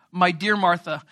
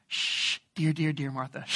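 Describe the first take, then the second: First: Said in the usual way. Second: Soft shushing, dear said gently; soothing hush. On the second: Shown as a demonstration. Jesus calming anxious Martha, soft soothing hush. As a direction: soothe her like a nervous horse, softer. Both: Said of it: "like, actually".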